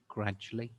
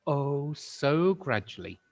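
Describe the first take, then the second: First: Said in the usual way. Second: Drawn out. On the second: A narrator's reading.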